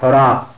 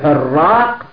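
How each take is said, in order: First: The first vowel is u and the r is short. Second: The first vowel is a and the r is doubled. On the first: The speaker calls it right. "بضم الحاء وتخفيف الراء" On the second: The speaker calls it wrong. "وتشديد حراق، هذا من لحن وغلط العامة"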